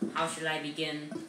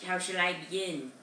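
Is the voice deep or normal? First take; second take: deep; normal. First: It is said in a deeper voice. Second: It is said in a normal voice.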